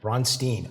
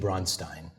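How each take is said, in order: First: The name is said with an English pronunciation. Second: The name is said with a German pronunciation. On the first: This is the version the person actually goes by. The speaker calls it wrong. "although it is not the correct pronunciation" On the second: This is the original form of the name. The speaker calls it right. "It really should be Bronstein, you know, for those students of German"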